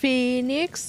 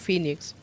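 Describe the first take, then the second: First: The word is said in full, every letter sounded. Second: The word is clipped, with letters dropped. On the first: "der sagt ja nicht Phoenix" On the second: "sondern der sagt dann halt einfach nur Phoenix"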